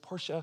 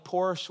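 First: It is said the way car enthusiasts say it. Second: It is said the ordinary everyday way.

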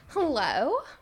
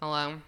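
First: The greeting sounds warm and friendly. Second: The greeting sounds cold and curt.

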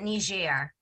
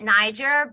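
First: The name is said with the international pronunciation. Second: The name is said with the American pronunciation. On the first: "the rest of the world will pronounce it Niger" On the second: "the Americans will pronounce it Niger"

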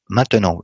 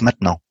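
First: The middle e is clearly pronounced. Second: The middle e is swallowed, contracting the word. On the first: The speaker calls it right. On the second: The speaker calls it wrong.

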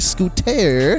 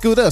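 First: The middle consonant is a crisp T sound. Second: The middle consonant is a soft D sound. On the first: The speaker calls it wrong. "a lot of people spell it with a T, and it's like, oh, we don't say scooter" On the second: The speaker calls it right. "It's Scooda"

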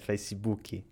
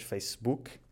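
First: It is said in a Brazilian Portuguese accent. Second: It is said in a European Portuguese accent.

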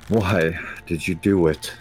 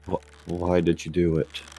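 First: It is said with some anger. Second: It is said softly while sobbing.

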